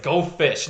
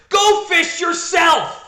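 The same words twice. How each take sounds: First: Said in the usual way. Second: High, drawn-out mock yell; angry shout. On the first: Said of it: "Brain's like". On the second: Francine retorts to Brain at cards, furious mock shout. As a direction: shout it back, far higher and louder.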